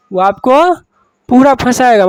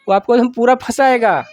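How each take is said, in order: First: Louder, with पूरा hit hard; urgent teacher emphasis on पूरा फंसाएगा; emphatic warning. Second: Said in the usual way. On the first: Shown as a demonstration. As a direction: drive the warning home to the class. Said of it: "teacher repeats warning louder". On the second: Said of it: "teacher repeats warning".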